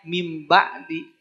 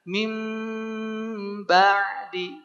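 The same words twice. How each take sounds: First: The m is plain, without a held nasal hum. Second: The m is held with a strong nasal hum. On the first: The speaker calls it wrong. "jangan hanya mim ba'di" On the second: The speaker calls it right. "Tambahin gunnah ... rasakan ke rongga hidung"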